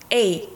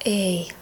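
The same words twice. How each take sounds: First: The vowel begins abruptly with a hard onset. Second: The vowel begins softly without a sharp onset. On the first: The speaker calls it right. "сартикулировать так, чтобы как будто по щелчку мы эту букву выбросили" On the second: The speaker calls it wrong. "не просто эй"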